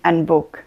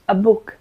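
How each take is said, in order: First: Two consonants clash awkwardly between article and noun. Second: A vowel flows smoothly into the noun's consonant. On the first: The speaker calls it wrong. "zase bych cpala dvě souhlásky k sobě" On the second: The speaker calls it right. "Krásně mi to plyne"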